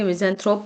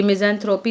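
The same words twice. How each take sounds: First: मिज़ैंथ्रोप ending cleanly on the p; silent final E. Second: मिज़ैंथ्रोपी ending in an added "ee"; wrong final vowel. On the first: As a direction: say मिज़ैंथ्रोप with no "ee" after the p. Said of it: "मिज़ैंथ्रोप पढ़ेंगे". (मिज़ैंथ्रोप, अंत में सिर्फ़ "प" की आवाज़) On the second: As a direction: say मिज़ैंथ्रोपी with "-pee" at the end. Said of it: "ये मिज़ैंथ्रोपी नहीं पढ़ेंगे". (मिज़ैंथ्रोपी, अंत में "ई" की आवाज़ के साथ) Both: Shown as a demonstration.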